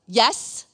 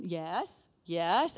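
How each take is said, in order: First: Loud, impatient mom's answer; impatient snap. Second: Put-on restrained answer to a child; strained patience. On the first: Retold or imitated. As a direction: snap it at the child interrupting you. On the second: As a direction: answer with patience starting to wear thin. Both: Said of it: "sometimes I would do that".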